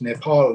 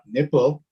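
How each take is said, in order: First: It is said as Nepal, ending in 'paul'. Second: It is said like the word nipple. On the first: The speaker calls it right. "it's Nepal" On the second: The speaker calls it wrong. "not nipple"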